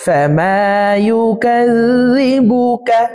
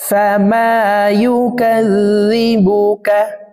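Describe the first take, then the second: The two takes are said the same way.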